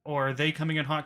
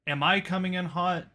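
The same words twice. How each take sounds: First: "they" emphasized as the alternative; stress on THEY. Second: "I" lifted, questioning rise at the end; stress on I. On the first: Contrasts their mic level with own. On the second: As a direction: ask with the emphasis on "I". Contrasts own mic level with theirs. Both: Real, not acted.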